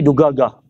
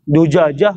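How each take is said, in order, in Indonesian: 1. Konsonan di tengah adalah bunyi g keras. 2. Konsonan di tengah adalah bunyi j.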